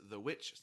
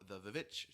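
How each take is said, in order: First: The title is said as the ordinary word witch. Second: The title is said with an extra vi sound. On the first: "his first movie is The Witch" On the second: "sometimes called The Vivitch, simply because of the way that it's written"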